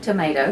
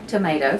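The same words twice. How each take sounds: First: It is pronounced the North American way. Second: It is pronounced the North American way.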